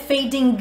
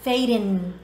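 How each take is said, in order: First: The word ends with a clear g sound. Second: The word ends in an n sound, no g. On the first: The speaker calls it wrong. "não" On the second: The speaker calls it right. "eu não pronuncio g"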